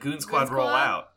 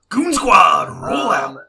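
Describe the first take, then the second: First: It is said in a normal speaking voice. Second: It is said in a put-on character voice.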